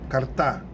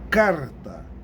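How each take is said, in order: First: The stress is on the last syllable. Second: The stress is on the first syllable. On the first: The speaker calls it wrong. "Aí seria a tônica a última" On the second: The speaker calls it right. "Eu sei que é a penúltima sílaba"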